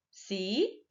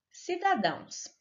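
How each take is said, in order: First: "Cidadãos" split into ci, da, dãos; teacher sounding out "Cidadãos" piece by piece; syllable by syllable. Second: Said in the usual way. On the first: Shown as a demonstration. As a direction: break "Cidadãos" into separate syllables with clear pauses. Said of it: "a sílaba tônica é a última sílaba". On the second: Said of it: "pronunciamos com mais força".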